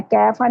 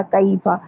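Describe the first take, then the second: First: First कैफा as 'kefa', a single open vowel; wrong flat vowel. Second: कैफा as 'ka-eefa', gliding into ee; correct leen glide. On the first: Teacher shows the mistake, 'kaefa' without glide. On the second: Teacher models the correction, 'ka-eefa' glide. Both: Shown as a demonstration. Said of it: "कैफा नहीं होता कैफा".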